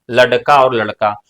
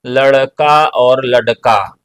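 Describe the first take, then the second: First: Said in the usual way. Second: लड़का said slowly twice, the ड़ carefully flapped; slow pronunciation demo. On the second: Shown as a demonstration. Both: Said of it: "इसका उच्चारण दो तरीके से होता है".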